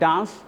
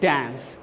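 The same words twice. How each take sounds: First: It is said in a British accent. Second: It is said in an American accent. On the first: "Britishers बोलते हैं" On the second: "Americans बोलते हैं"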